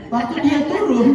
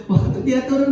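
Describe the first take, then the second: First: Laughing through the words; can't hold back a chuckle mid-story; giggling while telling it. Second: Said in the usual way. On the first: Real, not acted.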